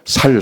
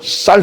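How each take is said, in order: First: The word begins with a plain, soft s sound. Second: The word begins with a tense, hard s sound. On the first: The speaker calls it wrong. "경상도 사람들은. 살, 살 그러거든요" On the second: The speaker calls it right. "쌀 해봐"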